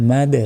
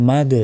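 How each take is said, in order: The two takes are said the same way.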